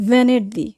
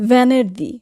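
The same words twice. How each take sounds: No difference in how they are said.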